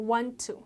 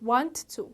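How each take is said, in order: Both takes have the same delivery.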